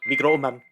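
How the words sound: It is pronounced with a Japanese-sounding accent. "I like the way it sounds Japanese"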